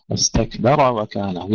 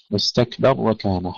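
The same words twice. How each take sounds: First: واستكبر with a clear fatha on the ra, slowly; open fatha ra. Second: واستكبر with the ra made silent; wrong silent ra. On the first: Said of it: "يجب أن ندفعها قليلًا حتى تظهر فتحتها". (واستكبر بفتح الراء بوضوح) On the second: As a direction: say واستكبر stopping dead on the ra. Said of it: "يسكنون الراء". (واستكبر بتسكين الراء خطأً) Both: Shown as a demonstration.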